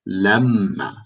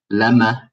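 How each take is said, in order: First: LEMMA slowed, with the m held long; double m. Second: LEMMA with a short single m. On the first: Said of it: "It's a double sound". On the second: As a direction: say LEMMA quickly through one m, no doubling. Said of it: "I don't say". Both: Shown as a demonstration.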